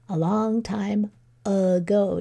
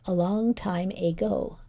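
First: The first vowel of ago is a weak schwa. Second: The first vowel of ago is a full 'ay'. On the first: The speaker calls it wrong. "just say it naturally" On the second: The speaker calls it right. "This should be ago"

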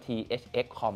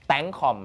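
First: The name is read as separate letters. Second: The name is read as one word. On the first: The speaker calls it wrong. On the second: The speaker calls it right.

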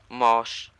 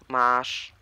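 First: The vowel sounds like an o. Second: The vowel is a drawn-out long a. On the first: "A pochylone, czyli to O" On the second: "No i z długim A"

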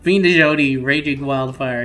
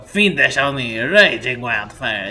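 First: It is said in the speaker's plain accent. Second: It is said in a put-on French accent.

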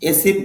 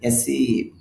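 First: The second vowel is short. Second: The second vowel is long. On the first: The speaker calls it wrong. "এসিভ বলেন অনেকে, এসিভ হবে না" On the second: The speaker calls it right. "দীর্ঘ উচ্চারণ হবে"

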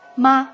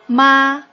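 First: The syllable is short, light and unstressed. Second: The pitch stays high and level. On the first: It marks a question. "question mark" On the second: It means mother.

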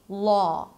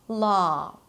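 First: The vowel is a more rounded 'aw'. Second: The vowel is an open, unrounded 'ah'. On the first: "in some dialects, you'll hear it as a more rounded sound" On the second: "it represents together the ah as in father vowel sound"

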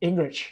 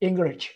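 The two takes are said the same way.

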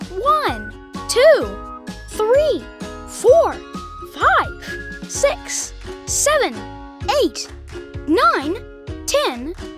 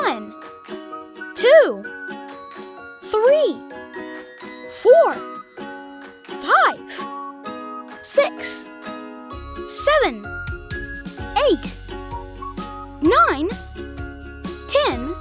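First: The numbers are counted at a very fast pace. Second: The numbers are counted at a slow pace.

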